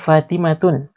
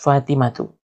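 First: The word ends with an added n sound. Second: The word ends on a vowel, without n. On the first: The speaker calls it wrong. "Tidak bisa dibaca Fatimatun" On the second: The speaker calls it right. "Harus Fatimatu"

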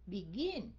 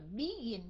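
First: The stress is on the second syllable. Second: The stress is on the first syllable. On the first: The speaker calls it right. "Mình đọc là begin. Mình bỏ dấu sắc vô cái âm cuối cùng" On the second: The speaker calls it wrong. "Mình đâu có đọc là begin đâu"

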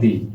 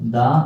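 First: The word ends in a long ee vowel. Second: The word ends in a short uh vowel. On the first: The next word begins with a vowel sound. "যখন আমরা vowel sound দেখবো তখন আমরা দি শব্দ উচ্চারণ করবো" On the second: The next word begins with a consonant sound. "যখন consonant দেখবো তখন আমরা দা উচ্চারণ করবো"

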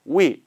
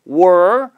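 First: Only 'we' is heard; 'are' disappears. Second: The words merge into one syllable like 'were'. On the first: "아니면 we 다 가능해요" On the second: "아니면 were"

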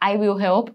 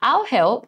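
First: Both words 'I will' are said in full. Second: The words are contracted into one syllable 'I'll'. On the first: "ถ้าหนูออกเสียงย่อไม่ถนัดพูดได้ค่ะ" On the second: "ถ้าอยากย่อๆเขาจะเป็น I'll"

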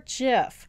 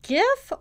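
First: The word begins with a J sound. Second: The word begins with a hard G sound. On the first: "I'll just go with that pronunciation" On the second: "Is it GIF or JIF?"

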